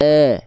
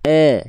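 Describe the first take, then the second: First: The vowel comes out open, like 'e'. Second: The vowel comes out open, like 'e'.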